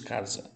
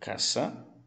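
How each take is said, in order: First: The middle consonant is a buzzing z sound. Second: The middle consonant is a hissing s sound. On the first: This is the Portuguese pronunciation. "em português nós dizemos casa" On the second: This is the Spanish pronunciation. "tem som de S"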